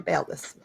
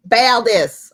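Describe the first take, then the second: First: Said in the usual way. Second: Name called out louder in a southern accent. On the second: Shown as a demonstration. Game master naming a character, southern accent. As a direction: try a southern drawl on the name. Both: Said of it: "give you a southern accent".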